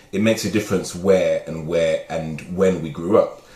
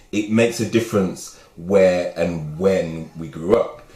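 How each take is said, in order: No difference in how they are said.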